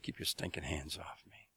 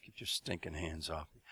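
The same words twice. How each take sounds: First: Hissed whisper, low and menacing; whispered threat. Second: Low, soft, menacing growl; low warning. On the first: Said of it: "He just said". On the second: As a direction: say it quietly through the teeth. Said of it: "jerked his arm away and said". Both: Retold or imitated.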